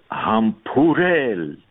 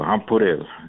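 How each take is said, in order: First: The word is said breathily, with refined delivery. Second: The word is said plainly, without breathiness. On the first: The speaker calls it right. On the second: The speaker calls it wrong.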